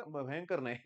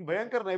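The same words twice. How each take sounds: First: Said in the usual way. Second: "भयंकर नाही" said with a laugh; laughing correction. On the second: Real, not acted. Teacher laughs at his own slip with students, laughing. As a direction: correct the word "भयंकर" while chuckling.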